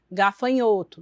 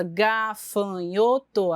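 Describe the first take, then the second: First: Said in the usual way. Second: "gafanhoto" as slow, separate syllables, ga-fa-nho-to; "gafanhoto" stretched into four distinct beats. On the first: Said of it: "a criança tem que falar". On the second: Shown as a demonstration. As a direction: spell out "gafanhoto" by drawn-out syllables. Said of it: "então, essa soletração".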